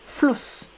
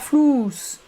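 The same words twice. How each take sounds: First: The vowel is said short. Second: The vowel is said long. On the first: The speaker calls it right. "c'est court" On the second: The speaker calls it wrong. "et pas"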